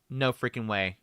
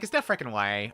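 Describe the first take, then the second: First: It is said in his normal voice. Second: It is said in a Valley Girl voice.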